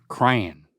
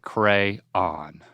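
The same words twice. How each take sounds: First: "crayon" as one syllable rhyming with man. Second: "crayon" slowly, as two syllables, CRAY-on. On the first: Showing Dad the other way, "crayon" rhyming with man. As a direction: say "crayon" like "cran", one falling beat. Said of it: "Rhymes with man". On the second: Demonstrating the word to Dad, "crayon" as two syllables, CRAY-on. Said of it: "Two syllables sounds like". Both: Shown as a demonstration.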